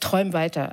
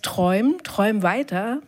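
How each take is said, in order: First: It is said in a dismissive, sarcastic tone. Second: It is said in a hopeful, encouraging tone. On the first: Those hopes are only an illusion. "aber auch die Desillusionierung" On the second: Keep dreaming of a better future. "da ist die Utopie"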